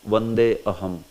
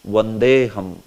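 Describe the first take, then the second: First: The two words are said separately with 'a' sounded. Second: The words are joined and the 'a' is dropped. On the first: The speaker calls it wrong. "somebody may pronounce" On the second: The speaker calls it right. "you have to say it like this only"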